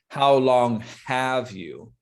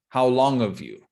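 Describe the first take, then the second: First: The h in 'have' is clearly pronounced. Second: The h is dropped, sounding like 'of'. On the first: "It's not really how long have you" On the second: "this really sounds like how long of, like O F"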